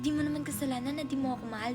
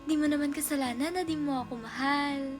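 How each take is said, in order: First: The line sounds mocking and sarcastic. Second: The line sounds warm and supportive.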